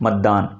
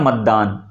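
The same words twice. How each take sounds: The two takes are said the same way.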